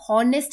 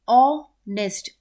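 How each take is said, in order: First: The word begins with an audible h sound. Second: The word begins directly with an o vowel. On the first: The speaker calls it wrong. "इस word को भी हम हॉनेस्ट नहीं पढ़ते" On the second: The speaker calls it right. "हम पढ़ते हैं ऑनेस्ट"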